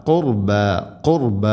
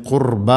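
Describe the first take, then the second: First: ഖുർബ with a weighty "qur" and a thin light "ba"; heavy r, light ba. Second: ഖുർബ with a heavy, dark "baa" at the end; wrong heavy ending. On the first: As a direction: make the r in ഖുർബ heavy, keep the ending light. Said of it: "കനപ്പിച്ച് ഉച്ചരിക്കണം". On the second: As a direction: end ഖുർബ on a thick open aa. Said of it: "എന്നല്ല". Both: Shown as a demonstration.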